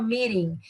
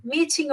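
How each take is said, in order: First: "meeting" with a tapped, d-like t; American pronunciation. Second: "meeting" with a clear British t; British pronunciation. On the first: Teacher contrasting British and American speech, American pronunciation. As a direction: soften the T in "meeting" to a quick American flap. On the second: Teacher contrasting British and American speech, British pronunciation. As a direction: say "meeting" crisply with a true T in the middle. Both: Shown as a demonstration. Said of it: "a pronúncia só britânica e americana".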